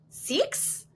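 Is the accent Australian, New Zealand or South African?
Australian. It is said in an Australian accent.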